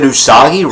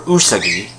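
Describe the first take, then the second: First: The stress falls after the first syllable. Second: The stress is on the first syllable. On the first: The speaker calls it right. "they get Usagi right" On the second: The speaker calls it wrong. "they don't call her Usagi"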